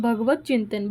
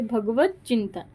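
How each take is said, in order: First: Said in the usual way. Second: भगवत चिंतन said as "भगवच्चिंतन", the t merging into a doubled च; sandhi with doubled ch. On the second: Shown as a demonstration. (भगवत चिंतन को "भगवच्चिंतन" की तरह जोड़कर बोलें) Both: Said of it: "बोल के आप देखोगे ना".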